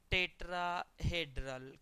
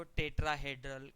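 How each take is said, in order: First: Slow repeat. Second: Said in the usual way. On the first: Shown as a demonstration. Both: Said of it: "क्या बोलते हो?".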